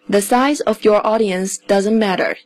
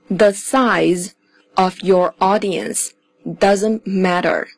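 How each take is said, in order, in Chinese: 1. 这句话读得流畅，语速正常。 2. 这句话读得慢而仔细。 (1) "我们现在再连起来读一遍" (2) "我会用慢速来读"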